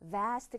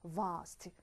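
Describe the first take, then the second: First: The vowel is a front 'ae' sound. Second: The vowel is an open 'ah' sound.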